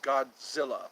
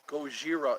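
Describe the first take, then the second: First: It is said with a 'dz' and an 'l' sound. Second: It is said with a 'j' and an 'r' sound. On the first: This is the English way of saying the name. "Our pronunciation is Godzilla" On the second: This is the Japanese way of saying the name. "but in Japanese it's Gojira"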